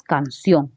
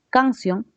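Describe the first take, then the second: First: "canción" slowly, with the weight on CIÓN; correctly stressed canCIÓN, drawn out; stress on last syllable. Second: "Canción" stressed on CAN, pitched higher; "Canción" misaccented as CÁNcion; wrong first-syllable stress. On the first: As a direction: lean into the final CIÓN of "canción". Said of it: "Dices canción". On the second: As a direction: hit CAN and drop the ción of "Canción". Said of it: "no dices eso". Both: Shown as a demonstration.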